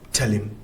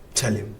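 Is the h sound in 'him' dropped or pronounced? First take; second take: dropped; dropped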